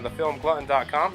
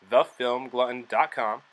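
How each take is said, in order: First: It is said at normal speed. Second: It is said slowly.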